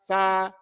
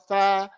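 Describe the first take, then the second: First: The syllable has an open 'a' vowel. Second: The syllable has an open 'a' vowel.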